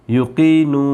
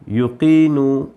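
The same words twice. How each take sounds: The two takes are said the same way.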